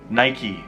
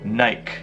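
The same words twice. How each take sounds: First: It is said with an American pronunciation. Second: It is said with a British pronunciation. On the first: The speaker calls it right. "in America we pronounce it Nike" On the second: The speaker calls it wrong. "in the U K they say Nike"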